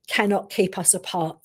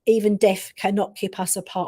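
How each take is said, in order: First: "cannot keep us apart" drawn out slowly with a falling end; measured, solemn delivery of "cannot keep us apart"; slow, weighty quote. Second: Said in the usual way. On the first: Retold or imitated. Brother's message relayed by medium.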